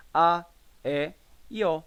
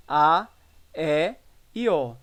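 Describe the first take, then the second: First: "a, e, e o" with open, stressed vowels. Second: "a, e e o" with half-closed vowels. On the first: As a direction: sound out "a, e, e o" one by one, wide open. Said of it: "vogais tônicas abertas e semiabertas". ("a, e, e o" com vogais bem abertas) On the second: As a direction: sound out "a, e e o" one by one, half closed. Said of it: "utilizado nas vogais tônicas semifechadas". ("a, e e o" com vogais semifechadas) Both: Shown as a demonstration.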